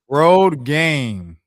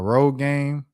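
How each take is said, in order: First: Each word is pronounced distinctly and carefully. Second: The two words blur together into one word. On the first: The speaker calls it right. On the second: The speaker calls it wrong.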